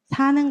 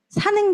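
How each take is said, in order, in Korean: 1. 첫 모음을 길게 늘여 발음해요. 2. 첫 모음은 짧아요.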